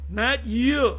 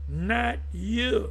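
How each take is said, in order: First: Mock gossipy taunt, louder and far; Lewis Gossip voice. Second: Light breathless gossip, lingering rise; Lewis Gossip voice. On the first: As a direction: tease it like a gossip. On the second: Pretend. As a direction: gossip it with a rising lilt. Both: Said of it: "In my Lewis Gossip voice".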